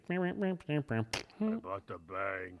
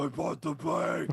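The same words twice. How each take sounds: First: Very slow, put-on Batman voice. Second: Higher, louder put-on Batman line. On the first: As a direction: drag it out as Batman. Repeating Batman line in voice. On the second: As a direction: belt it out as Batman.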